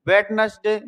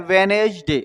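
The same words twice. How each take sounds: First: वेडनेसडे with the first D sounded; spelling pronunciation. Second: वेनेसडे with no D after the first syllable; silent D. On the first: Teacher reading the written word, वेडनेसडे with its D voiced. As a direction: say वेडनेसडे as written, "wed-nes-day". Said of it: "इसको बोलते हैं वेनेसडे". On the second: Teacher showing how it is spoken, वेनेसडे with silent D. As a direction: say वेनेसडे as "ve-nej-de". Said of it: "इसको बोलते हैं". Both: Shown as a demonstration.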